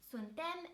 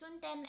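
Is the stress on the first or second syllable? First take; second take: second; first. First: The stress is on the second syllable. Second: The stress is on the first syllable. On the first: This is common in the Moldova region. "stress the second syllable" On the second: This is the form linguists recommend. "with a stress on the first syllable"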